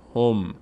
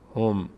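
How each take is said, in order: No difference in how they are said.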